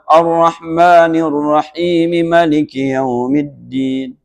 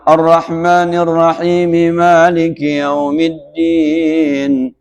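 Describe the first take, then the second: First: The first vowel of Maliki is kept short. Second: The first vowel of Maliki is drawn out long. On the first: "Rakaat kedua" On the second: "Rakaat pertama"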